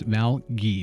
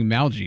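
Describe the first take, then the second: First: The G is hard, like in ghee. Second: The G is soft, like in algae. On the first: The speaker calls it right. "It's a it's a hard G" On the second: The speaker calls it wrong. "I used to be saying Malgy"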